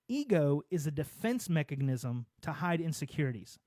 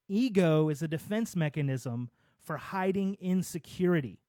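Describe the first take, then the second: First: It is said at normal volume. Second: It is said louder, with more force.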